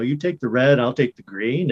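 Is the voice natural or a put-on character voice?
natural. It is said in the speaker's natural voice. The speaker calls it right. "This character just sounds like me"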